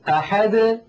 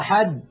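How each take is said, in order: First: The final d is released with a slight bounce. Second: The final d is stopped abruptly without release. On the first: The speaker calls it right. "بل يقولون أحد ... هكذا بالتباعد" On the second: The speaker calls it wrong. "لا يقولون قل هو الله أحد"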